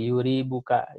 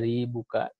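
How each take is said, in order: First: The first syllable has a 'u' vowel. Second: The first syllable has an 'a' vowel. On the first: "mendomahkannya jadi yuri buka" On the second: "memfathahkan ya jadi yari buka"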